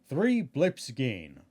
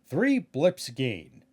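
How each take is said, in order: Both takes have the same delivery.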